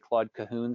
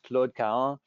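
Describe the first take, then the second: First: The name is said with an English pronunciation. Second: The name is said with a French pronunciation. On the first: "most English speakers, especially in the United States, tend to say" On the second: "her name in French really should be, be pronounced"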